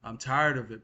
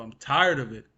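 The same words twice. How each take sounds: First: Said in the usual way. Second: TIRED punched out loudly; stress on TIRED. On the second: Real, not acted. Venting to viewers about being fed up, loud stress on TIRED. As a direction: hit the word TIRED hard and loud. Repeats complaint with more force.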